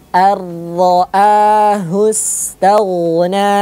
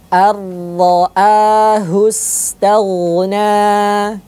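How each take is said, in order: The two takes are said the same way.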